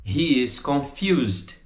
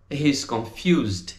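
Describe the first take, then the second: First: HE and IS both sounded before confused; full form. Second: "He's" as one syllable before confused; contracted. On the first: Teacher models the full form, "He is" in two syllables. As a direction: say "He is confused" uncontracted. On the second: Teacher models the contraction, "He's" in one syllable. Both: Shown as a demonstration.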